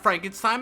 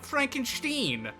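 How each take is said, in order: First: The name is pronounced the usual way. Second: The name is pronounced an altered way. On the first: This is the relative's name he rejects. "I'm not a Frankenstein" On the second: This is his own distinct version of the name. "he pronounces it Frankenstein in order to be like"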